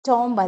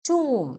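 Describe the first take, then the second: First: A b sound is heard at the end. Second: The word ends in m with no b. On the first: The speaker calls it wrong. "ടോംബ് അല്ല" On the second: The speaker calls it right.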